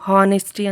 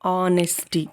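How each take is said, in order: First: The word begins with an h sound. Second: The word begins directly with a vowel. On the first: The speaker calls it wrong. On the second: The speaker calls it right. "ఇక్కడ హెచ్ silent అనమాట"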